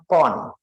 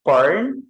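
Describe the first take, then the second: First: "porn" said the British way, without the r, falling; British pronunciation. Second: "porn" said the American way, pitch rising; American pronunciation. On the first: Teacher showing students the British reading, British pronunciation. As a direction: drop the r in "porn", British style. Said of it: "di bahasa Inggris kan British". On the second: Teacher showing students how Americans say the word, American pronunciation. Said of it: "Amerika, kalau tulisannya di Amerika". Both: Shown as a demonstration.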